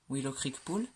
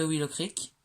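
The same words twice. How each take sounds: First: A clumsy, self-mocking English accent on "Willow Creek Pool"; bad English accent. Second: Said in the usual way. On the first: Shown as a demonstration. Announcing the Sims pool name to viewers in a bad English accent. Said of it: "j'ai un accent anglais, mais tellement merdique". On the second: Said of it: "j'ai un accent anglais".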